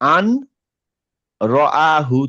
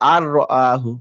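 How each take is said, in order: First: The n sound is kept before the r. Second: The n is dropped and the r is doubled. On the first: The two words are read separately. The speaker calls it wrong. "এখানে একটা নুন ছিল" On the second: The two words are joined together. The speaker calls it right. "এই নুনটা কেটে দিলাম"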